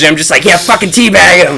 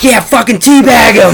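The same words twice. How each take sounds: First: Wife mimicking him. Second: High, loud laughing shout; gleeful gamer yell. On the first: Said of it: "she's like". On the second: Retold or imitated. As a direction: cheer on the teabag. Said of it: "in the other room just screaming".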